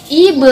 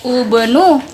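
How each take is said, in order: First: The word begins with an i vowel. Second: The word begins with a u vowel. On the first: The speaker calls it right. "tapi ibe" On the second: The speaker calls it wrong. "bukan ubenu"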